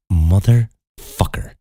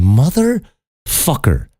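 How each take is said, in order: First: Slow, stretched-out exasperated swear; drawn-out curse. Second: Slow, pitched-up exasperated swear; high drawn-out curse. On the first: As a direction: drag the curse out in disbelief. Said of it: "And I went". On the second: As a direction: stretch it out high in outrage. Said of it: "And I'm going". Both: Retold or imitated.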